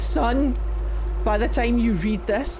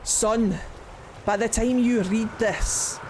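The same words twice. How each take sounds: First: It is read in the speaker's everyday accent. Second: It is read in a put-on, heavy Scottish accent.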